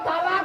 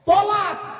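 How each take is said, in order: First: The first vowel is a long open 'aa'. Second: The first vowel is a short 'o'. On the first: It means joining together. The speaker calls it wrong. "শব্দটা তালাক নয়" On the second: It means divorce. The speaker calls it right. "শব্দটা কি শুনুন"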